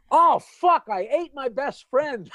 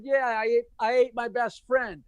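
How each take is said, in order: First: High, loud laughing shout of dismay; horrified realization. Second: Said in the usual way. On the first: Acted. Clam realizing he ate his friend, laughing shout. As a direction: blurt it out in mock horror, laughing. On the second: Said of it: "And I said".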